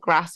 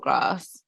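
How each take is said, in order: First: The vowel is a short flat a. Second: The vowel is a long broad ah. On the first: "the ass"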